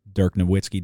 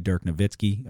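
First: Nowitzki with a W sound, "no-WIT-ski"; English-style pronunciation. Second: Nowitzki with a V sound, "no-VIT-ski"; German-style pronunciation. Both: Shown as a demonstration. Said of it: "it's probably German".

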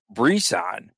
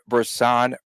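First: "Brisson" with a clear ee in the first syllable; "Brisson" opening on a full "bree"; his pronunciation. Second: "Brisson" with a short, unstressed first syllable; "Brisson" starting on a reduced vowel; alternate pronunciation. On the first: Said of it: "or Brisson, as he calls him". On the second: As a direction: say "Brisson" as bruh-SAHN. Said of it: "keep going back and forth with that". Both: Shown as a demonstration.

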